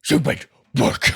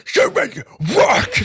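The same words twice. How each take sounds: First: Loud but held-back "Stupid work". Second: High, slow, wailing "Stupid work"; very loud cry. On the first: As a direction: say it loud, a bit restrained. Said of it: "not gonna say it too loud". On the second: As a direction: belt it out at full voice. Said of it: "blew out all of everybody's ears". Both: Shown as a demonstration.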